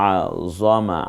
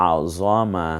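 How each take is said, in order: No difference in how they are said.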